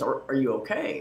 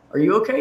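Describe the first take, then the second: First: Said in the usual way. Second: YOU lifted high as the question is returned; "you" higher and stronger, asking back; stress on YOU. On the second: Retold or imitated. Same question turned back on her.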